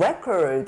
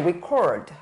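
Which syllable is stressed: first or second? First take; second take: first; second. First: The stress is on the first syllable. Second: The stress is on the second syllable. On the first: It is a noun. "명사일 때는" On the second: It is a verb. "동사일 때는"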